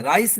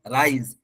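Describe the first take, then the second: First: "राइस" ending in a voiceless S; wrong hard S. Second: "राइज" ending in Z, "raiz". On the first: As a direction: say "राइस" like "rice". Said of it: "राइस नहीं बोलिएगा आप". ("राइस" में एस की आवाज़) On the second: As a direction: buzz the last sound of "राइज". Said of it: "एस की आवाज जा से आएगी". ("राइज" में ज़ा की आवाज़) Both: Shown as a demonstration.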